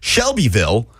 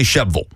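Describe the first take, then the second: First: The name is said with all its syllables. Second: The name is clipped into fewer syllables. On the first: "I'm not going to say Shelbyville" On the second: "go all the way to the other end and say Sheville"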